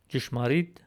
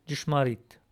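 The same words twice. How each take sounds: First: Jishmarit with a dj start; Western Armenian. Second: Jishmarit with an unaspirated t start; Eastern Armenian. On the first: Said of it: "in Western Armenian". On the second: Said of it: "in Eastern Armenian". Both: Shown as a demonstration.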